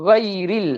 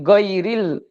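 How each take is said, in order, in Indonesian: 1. Diawali dengan bunyi gh seperti di tenggorokan. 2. Diawali dengan bunyi g keras biasa. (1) "tapi go, goiril" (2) "bukan goiril"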